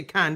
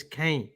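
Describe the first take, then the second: First: "can" said like a can of beans, short a; "can" as the English word can; wrong pronunciation. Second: "Caen" said kayn, long ay sound; "Caen" rhyming with Kane; correct pronunciation. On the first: Pundit showing how not to say the town, "can" like a tin can. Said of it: "Like can of beans". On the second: Pundit correcting the town's name, "Caen" said kayn. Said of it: "It's Caen". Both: Shown as a demonstration.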